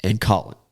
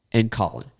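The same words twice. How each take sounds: The two takes are said the same way.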